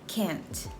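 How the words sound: The vowel is short, flat and fronted. "in General American G A accent it is pronounced as can't with a shorter and more front vowel"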